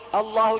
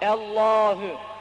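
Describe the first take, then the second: First: The a before the h is cut short. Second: The a before the h is held long. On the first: The speaker calls it wrong. "Allahu gibi olmaz" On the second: The speaker calls it right. "Bir elif miktarı çekiliyor"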